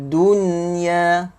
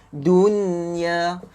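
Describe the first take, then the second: The two takes are said the same way.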